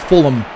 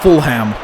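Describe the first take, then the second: First: The H sound in the middle is silent. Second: The H sound in the middle is pronounced. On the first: The speaker calls it right. "That's how you say it properly, I think. I think the H is silent" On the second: The speaker calls it wrong. "it's not Fulham"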